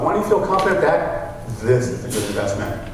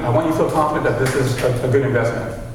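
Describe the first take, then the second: First: It is said deeper, with a pause, authoritatively. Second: It is said as a plain statement. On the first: "Now with authority, I'm going to pause" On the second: "This is me talking with a, a statement"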